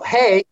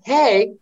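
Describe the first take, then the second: First: It is said calmly and casually. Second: It is said eagerly and excitedly.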